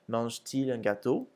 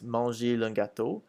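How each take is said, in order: First: A t sound separates the verb from il. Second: The verb runs straight into il without a t. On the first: The speaker calls it right. "we add a T. So it becomes" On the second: The speaker calls it wrong. "if we didn't, it would sound like this"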